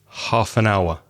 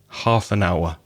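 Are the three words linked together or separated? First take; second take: linked; linked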